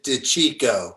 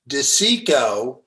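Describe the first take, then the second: First: The name has an authentic Italian pronunciation. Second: The name has an Anglicized American pronunciation. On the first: This is how Italians say the name. The speaker calls it right. "The real Italians pronounce it DeCicco" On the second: This is how the family says the name. The speaker calls it wrong. "we don't pronounce our name correctly. We pronounce it DeCicco"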